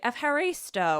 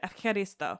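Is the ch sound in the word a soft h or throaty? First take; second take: soft h; throaty. First: The ch is a soft, breathy h sound. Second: The ch is a rough sound from the throat. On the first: The speaker calls it wrong. "they'll tell us in English, you can say efcharisto" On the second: The speaker calls it right. "it's really this more like in your throat"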